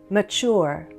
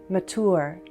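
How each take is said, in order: No difference in how they are said.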